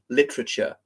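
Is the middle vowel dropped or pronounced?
dropped. The middle vowel is skipped, shortening the word. "Skipping certain syllables"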